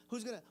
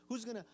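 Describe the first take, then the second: No difference in how they are said.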